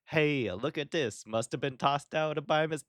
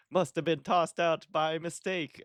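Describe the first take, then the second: First: A higher-pitched New York accent attempt that falls apart; botched New York accent, pitched up; failed New York accent. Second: A high, hammed-up New York accent that slides toward Italian, punching "tossed"; New York garbage man done like Mario's cousin; overdone New York accent drifting into Italian; Italian-sounding New York accent. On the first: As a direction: try a tough New York garbage man and miss it. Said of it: "nope, that's, this is hideous". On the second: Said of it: "Was that Mario's third cousin?".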